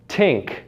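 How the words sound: The word begins with a t sound. "more of a dentalized t"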